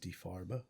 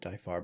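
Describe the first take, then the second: First: It is said the German way. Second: It is said the anglicized way. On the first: The speaker calls it right. "the official German pronunciation" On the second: The speaker calls it wrong. "Some pronounce it"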